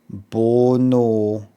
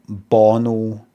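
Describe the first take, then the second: First: Both vowels sound the same, like 'oh no'. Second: The two vowels sound different from each other. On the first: "The O there is the same as the O there" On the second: "Rather than"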